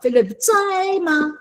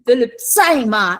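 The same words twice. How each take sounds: First: 在 is said with a level high tone. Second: 在 is said with a sharp falling tone. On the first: The speaker calls it wrong. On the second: The speaker calls it right. "it's actually 在 fourth tone"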